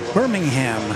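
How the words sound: It is pronounced the American way. "The way we say it over here"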